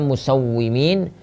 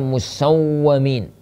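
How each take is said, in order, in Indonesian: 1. Vokal setelah w bertasydid adalah i. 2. Vokal setelah w bertasydid adalah a. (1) "bikasril waw" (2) "wa fatihah"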